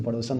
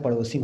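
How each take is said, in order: First: पड़ोसन ending in plain -san; the wrong पड़ोसन, no i before n; पड़ोसन as the mistake; wrong form said. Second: पड़ोसिन ending in -sin with an i; the right पड़ोसिन, clear i before n; पड़ोसिन with i, corrected; correct form. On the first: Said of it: "पड़ोसन नहीं होता है". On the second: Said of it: "पड़ोसिन होता है". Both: Shown as a demonstration.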